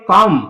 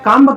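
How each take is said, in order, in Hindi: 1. यह शब्द m ध्वनि पर खत्म होता है। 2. यह शब्द b ध्वनि से खत्म होता है। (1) "बी का प्रोनाउंसिएशन नहीं होगी" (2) "कम्ब क्यों नहीं पढ़े?"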